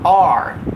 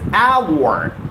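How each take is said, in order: First: The word sounds like 'are', without a glide. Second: The word sounds like 'our', with a gliding vowel. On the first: The speaker calls it wrong. "Most of us get the pronunciation wrong here. We pronounce it as R" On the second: The speaker calls it right. "The right pronunciation is hour"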